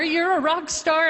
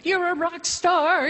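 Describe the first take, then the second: First: Repeating the doctor's praise, still much higher; excited doctor repeated. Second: Quoting the doctor's excitement, pitched much higher; excited doctor. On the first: Doctor praising her test results, excited repeat. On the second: Doctor rushing in with her results, mock excited praise. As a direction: gush it like the thrilled doctor. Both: Retold or imitated. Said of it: "He came running into the office".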